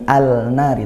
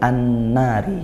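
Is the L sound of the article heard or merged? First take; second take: heard; merged. First: A clear L sound is heard before the N. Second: The L merges into a doubled N sound. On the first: The speaker calls it wrong. "tidak bunyi al-nari" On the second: The speaker calls it right. "tapi an-nari"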